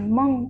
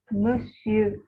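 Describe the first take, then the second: First: It is cut to one short nasal syllable. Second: It is said fully with two syllables. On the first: The speaker calls it wrong. "bukan Mong" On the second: The speaker calls it right.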